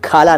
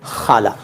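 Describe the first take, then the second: First: It begins with an aspirated stop k sound. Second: It begins with a raspy fricative kh sound. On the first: The speaker calls it wrong. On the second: The speaker calls it right.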